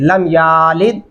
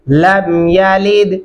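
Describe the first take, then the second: First: The vowel after y is long. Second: The vowel after y is short. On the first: The speaker calls it wrong. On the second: The speaker calls it right.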